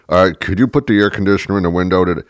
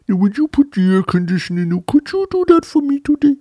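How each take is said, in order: First: Said in the usual way. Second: Very high cooing request; cutesy, high-pitched pleading; baby talk. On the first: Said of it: "'cause you're talking down to me". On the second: Shown as a demonstration. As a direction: wheedle in a squeaky baby voice. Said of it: "I started to resent baby talk".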